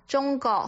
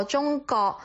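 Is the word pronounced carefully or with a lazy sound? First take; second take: lazy sound; lazy sound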